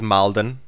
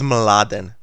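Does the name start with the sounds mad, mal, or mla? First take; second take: mal; mla. First: A vowel comes between the m and the l. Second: The name begins with the cluster m-l. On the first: The speaker calls it wrong. "people pronounce it as Malden" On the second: The speaker calls it right. "So my name is Mladen"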